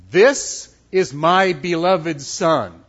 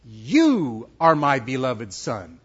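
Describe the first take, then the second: First: This hit loud, the rest slow and emphatic; stress on This. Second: You drawn out slowly and leaned on; stress on You. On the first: Voice from heaven to James, Peter and John, stressing This. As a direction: punch This and stretch out the sentence. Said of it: "Who is the voice speaking to there?". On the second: The Father speaking directly to the Son, stressing You. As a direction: lean hard on You, then slow, lower words. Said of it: "Who is the voice speaking to?". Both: Acted.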